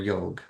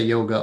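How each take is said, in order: First: The word ends on the g consonant. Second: The word ends with a final ah vowel. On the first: "without the uh, almost the longer ah at the end" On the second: "you could say yoga"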